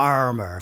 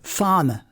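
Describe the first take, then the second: First: The R sound is strongly pronounced. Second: The R sound is almost not pronounced. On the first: "So the R's will be quite rolled" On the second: "really almost not there at all"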